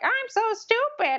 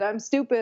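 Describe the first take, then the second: First: It is said in a squeaky Mickey Mouse voice. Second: It is said in his normal voice.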